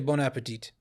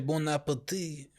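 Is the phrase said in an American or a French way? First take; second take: American; French. First: It is said with an American pronunciation. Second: It is said with a French pronunciation. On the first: "but we say bon appetit" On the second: "French say bon appetit"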